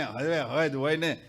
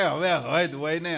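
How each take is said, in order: First: Weary mock complaint. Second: A hint of someone fed up; mild mock exasperation. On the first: The same devotee repeats it, lower and slower, worn out. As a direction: lower and slower, a drawn-out grumble. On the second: A devotee grumbles that enough is enough, mildly exasperated. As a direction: sigh out a light complaint.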